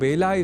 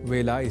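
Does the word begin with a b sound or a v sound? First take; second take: b sound; v sound. First: The word begins with a b sound. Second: The word begins with a v sound. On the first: The speaker calls it wrong. "व को ब के रूप में ... बोल जाते हैं ... तब हम अशुद्ध संस्कृत प्रयोक्ता बन जाएंगे" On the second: The speaker calls it right. "वेला को वेला इस रूप में लिखा और बोला जाना चाहिए"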